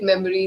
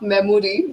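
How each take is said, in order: First: "memory" as MEM-uh-ree; "memory" with no o sound in the middle; standard pronunciation. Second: "memory" as mem-OR-ee, full o; "memory" with a prominent Indian-style o sound; Indian-style vowel. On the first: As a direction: reduce the middle vowel of "memory" to uh. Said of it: "you would hear it memory". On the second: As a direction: round the middle vowel of "memory" to aw. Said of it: "we Indians tend to use aw sounds". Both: Shown as a demonstration.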